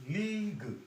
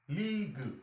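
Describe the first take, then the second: The two takes are said the same way.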